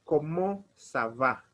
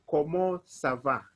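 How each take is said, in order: Both takes have the same delivery.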